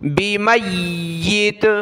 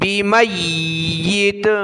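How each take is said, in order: First: The word ends abruptly on a bare 't'. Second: The word ends abruptly on a bare 't'.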